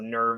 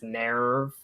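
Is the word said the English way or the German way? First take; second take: English; German. First: It is said with an English-style pronunciation. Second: It is said with a German-style pronunciation. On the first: This is the older pronunciation. "They also changed the pronunciation of a lot of words" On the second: This is the newer pronunciation. "the pronunciations they use are closer to what it's supposed to sound like"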